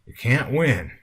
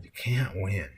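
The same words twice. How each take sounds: First: Lightly voiced weary man, pitched up; sighing yodel. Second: Resigned sigh. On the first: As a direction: lift it into a mild yodelling complaint. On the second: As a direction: let it sink into a mild sigh. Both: A narrator's reading. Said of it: "let out a combination sigh and yodel".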